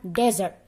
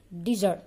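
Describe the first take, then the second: First: "desert" with an open E first, DEZ-ert; "desert" stressed at the front with a Z sound; desert, not dessert. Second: "Dessert" with a short I first, di-ZERT; "Dessert" as the sweet course, di-ZERT; dessert, the food. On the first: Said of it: "Kalau ini artinya desert". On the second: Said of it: "hidangan pencuci mulut". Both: Shown as a demonstration.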